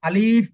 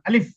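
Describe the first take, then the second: First: The vowel is drawn out long. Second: The word is said quickly and short. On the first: The speaker calls it wrong. "আলিফ বলা যাবে না" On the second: The speaker calls it right. "এটা দ্রুত"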